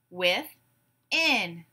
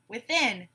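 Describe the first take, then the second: First: "Within" in two drawn-out beats; syllable by syllable. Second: Said in the usual way. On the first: Shown as a demonstration. Class breaks the word apart together, syllable by syllable. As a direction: say "Within" as with, pause, in. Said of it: "break it apart into syllables". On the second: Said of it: "I will give you a word".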